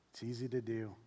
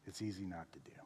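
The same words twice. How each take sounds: First: Said in the usual way. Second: Whispered. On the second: Shown as a demonstration. Pastor whispering to the congregation how easy neglect is. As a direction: drop to a whisper for the not. Contrasting doing and not doing.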